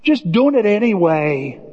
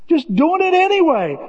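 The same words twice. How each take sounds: First: Said in the usual way. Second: "Just doing it anyway" lifted high and stressed; emphatic high. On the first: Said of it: "said slow, then repeated high". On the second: Shown as a demonstration. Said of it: "repeated with high emphasis".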